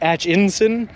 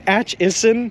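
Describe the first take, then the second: First: The name has an extra N sound. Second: The name has no extra N sound. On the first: The speaker calls it wrong. "I keep adding an N in there" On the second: The speaker calls it right. "It's Atchison"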